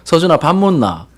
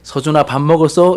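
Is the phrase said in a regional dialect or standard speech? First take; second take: dialect; standard. First: It is said in a regional dialect. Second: It is said in standard Seoul speech. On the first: "사투리 쓰셨겠죠" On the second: "표준말이잖아"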